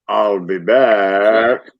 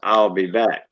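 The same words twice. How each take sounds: First: It is said in a heavy Austrian accent. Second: It is said without a foreign accent.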